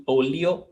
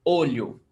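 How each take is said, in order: First: "olio" split into L plus ee-oh, rising; mistaken two-sound LH. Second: "Olho" with LH as one palatal L, falling; LH as one sound. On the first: Teacher showing what students think, mispronounced "olio". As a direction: say "olio" with a separate L and I. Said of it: "like chew". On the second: Teacher correcting students, "Olho" with one LH sound. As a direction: say "Olho" with a single blended ly sound. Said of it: "olho, it's one sound". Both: Shown as a demonstration.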